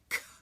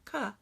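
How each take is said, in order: First: The consonant is voiceless with no vowel after. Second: A short voiced uh sound follows the consonant. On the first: The speaker calls it right. "get rid of that extra uh at the end" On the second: The speaker calls it wrong. "It's not k"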